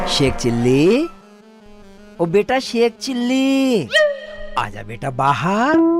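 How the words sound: It is said in a soft, loving tone.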